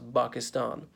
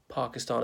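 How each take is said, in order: First: The word begins with an unaspirated B sound. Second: The word begins with a breathy P sound.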